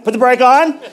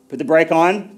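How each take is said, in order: First: It is said at the highest volume. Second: It is said at the lowest volume.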